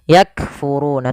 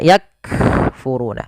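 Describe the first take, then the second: First: The word flows on without a break. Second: The word has a short break inside it. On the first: The speaker calls it right. "kita tahan dulu suaranya baru dialirkan nafasnya" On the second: The speaker calls it wrong. "tapi tidak disaktahkan, tidak yakfuruna"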